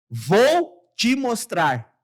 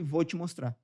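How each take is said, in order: First: The 'ou' of 'vou' is fully pronounced. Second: The 'ou' of 'vou' is reduced. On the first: It sounds formal and read aloud. The speaker calls it wrong. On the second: It sounds spontaneous and conversational. The speaker calls it right.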